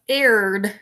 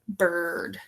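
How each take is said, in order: First: The vowel is sounded like 'ear'. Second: The vowel is sounded like 'er'. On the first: The speaker calls it wrong. "We don't sound it out like this" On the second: The speaker calls it right. "It says er"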